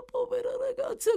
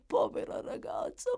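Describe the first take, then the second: First: Much higher, crying lament; anguished cry. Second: Breathless high whisper of pity; whispered grief. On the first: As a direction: let the grief break through. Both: Acted. Dying woman grieving the girl.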